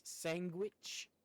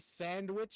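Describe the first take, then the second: First: "sandwich" said as SANG-gwitch; imitated pronunciation. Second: Said in the usual way. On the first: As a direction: swap the D for a G sound in "sandwich". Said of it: "she says sandwich". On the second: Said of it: "instead of sandwich".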